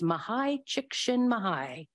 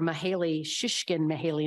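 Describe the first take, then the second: First: The first name ends in an 'eye' sound. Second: The first name ends in an 'ee' sound. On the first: The speaker calls it right. "I looked it up and I listened and it's" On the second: The speaker calls it wrong. "I thought it was Mahali or Mahaley"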